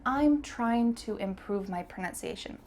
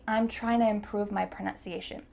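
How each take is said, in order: First: Trying to is said in full, slowly. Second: Trying to is reduced and linked, said quickly. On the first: The speaker is talking slowly or thinking. "it's best to use the full expression" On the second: The speaker is talking fast. "This is definitely for fast English"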